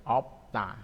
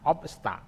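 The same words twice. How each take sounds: First: "opta" with the s dropped; as pronounced. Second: "Obsta" with the full p-s-t cluster; higher "Obsta", hissing the s before t; as written. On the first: Teacher shows how it is read, simplified "opta". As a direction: go from p straight to t in "opta". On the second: Teacher shows the written form, every consonant in "Obsta". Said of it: "Obsta itu ya tulisannya". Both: Shown as a demonstration.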